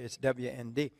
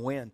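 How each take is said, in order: First: The name is spelled out letter by letter. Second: The name is said as one word, wend. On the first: The speaker calls it right. "It's not really. It's WND" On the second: The speaker calls it wrong. "I always call them WEND"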